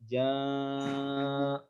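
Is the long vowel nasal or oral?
nasal. The long vowel is pushed through the nose. The speaker calls it wrong. "Enggak boleh"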